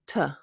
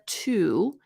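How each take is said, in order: First: The word is a short reduced 't' sound. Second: The word has a full 'oo' vowel. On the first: "It's just t" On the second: "instead of to"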